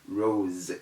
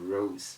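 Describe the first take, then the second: First: The final consonant is a z sound. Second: The final consonant is an s sound. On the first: The speaker calls it right. "call them Rose" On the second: The speaker calls it wrong. "instead of Rose"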